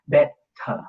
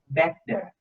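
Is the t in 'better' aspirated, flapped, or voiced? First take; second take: aspirated; voiced. First: The t is a stop with a puff of air. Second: The t is a voiced stop without air puff. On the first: "Is aspiration like also the first time" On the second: "the aspiration disappeared. It's only like the stop and the gap, but it is like a voicing bar"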